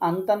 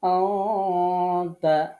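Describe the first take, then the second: First: The n is pronounced plainly, without a held hum. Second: The n is hidden in a held nasal hum. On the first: The speaker calls it wrong. "আন্তা না পড়ে" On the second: The speaker calls it right. "নাকের স্বরে একটু দম ধরে থেকে গুন্না করে"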